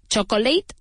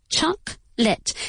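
First: "Chocolate" as cho-co-late, rising like a question; questioning cho-co-LATE, a learner's mistake; mistaken three-syllable pronunciation. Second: "Chocolate" slowly as CHOC, pause, LIT; falling, separated choc-lit; corrected two-syllable pronunciation. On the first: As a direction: sound the middle vowel in "Chocolate", three beats. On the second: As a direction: say "Chocolate" in two beats, dropping the middle vowel. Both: Shown as a demonstration.

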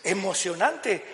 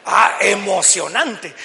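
First: Said in the usual way. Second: Loud, drawn-out exclamation of awe; acted thrill. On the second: Preacher acting out the thrill of crossing the sea, excited. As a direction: stretch it out loudly, hammed-up excitement.

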